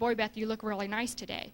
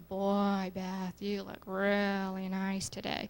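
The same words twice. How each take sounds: First: It sounds innocent and plainly friendly. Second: It sounds exaggerated and suggestive.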